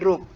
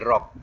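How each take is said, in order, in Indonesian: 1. Suku kata ini diucapkan dengan vokal 'u'. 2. Suku kata ini diucapkan dengan vokal 'a'. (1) "Tetap depan juga. Jadi matikan dengan kaf. Jadi bunyi ruk" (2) "Jangan jumpa ya beruku jadi rock pula. ... salah lah"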